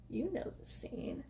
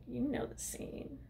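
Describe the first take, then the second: First: Whisper. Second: Hushed aside. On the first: Repeated aside, whispered. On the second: First take of aside. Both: Real, not acted.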